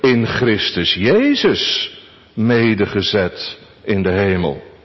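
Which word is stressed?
Christus Jezus. The stress falls on Christus Jezus. "En onze vierde gedachte"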